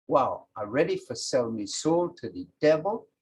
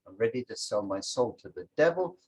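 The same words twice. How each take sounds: First: Creole reading. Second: Said in the usual way. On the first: Shown as a demonstration. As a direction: read in the Creole dialect, to be translated.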